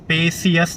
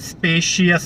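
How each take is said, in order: First: The middle consonant is a plain s sound. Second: The middle consonant is an sh sound. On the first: The speaker calls it wrong. "स्पेसियस नहीं है" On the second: The speaker calls it right. "बाद में श है"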